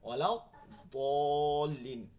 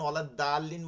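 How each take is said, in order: First: The second word starts with a heavy, thick consonant. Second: The second word starts with a light, thin consonant. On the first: The speaker calls it right. "মোটা করে বলতে হবে।" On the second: The speaker calls it wrong. "বললে হবে? হবে না।"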